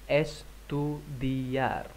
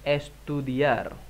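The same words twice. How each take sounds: First: Estudiar said very slowly and softly; very slow model word. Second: Estudiar stretched slowly; slow model word. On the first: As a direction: crawl through Estudiar for learners. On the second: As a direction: draw estudiar out syllable by syllable. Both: Shown as a demonstration. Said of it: "Vamos, estudiar".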